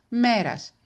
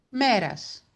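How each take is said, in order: No difference in how they are said.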